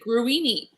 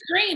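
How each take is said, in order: First: The name is said with three syllables. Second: The name is said as one syllable. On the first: This is how the spelling looks. "It looks like gruini" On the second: This is how locals say it. "they're like it's green"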